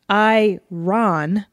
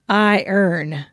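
First: The second syllable sounds like 'ron'. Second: The second syllable sounds like 'urn'. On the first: "I pronounce it phonetically" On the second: "she pronounces it like a second language"

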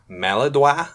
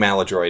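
First: The word is pronounced with a French-style sound. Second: The word is pronounced with an American-style sound. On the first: It sounds pretentious. The speaker calls it wrong. "Some people pronounce it Maladroit. ... sounds pretentious" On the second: It is the common pronunciation. The speaker calls it right. "I think Maladroit is the common pronunciation"

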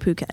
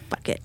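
First: It begins with a p sound, like poo-ket. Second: It begins with an f sound, like fuck it. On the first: The speaker calls it right. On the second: The speaker calls it wrong.

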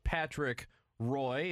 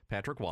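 First: The surname is said like 'Roy', rhyming with boy. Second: The surname is said like 'Wah', without an oy sound.

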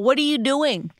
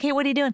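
First: It sounds like a suspicious interrogation. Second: It sounds like a relaxed, friendly greeting.

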